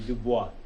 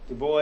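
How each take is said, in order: First: It sounds French and ends with a wah sound. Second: It sounds English and ends with an s sound. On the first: "the French pronunciation" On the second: "Du Bois is how we usually"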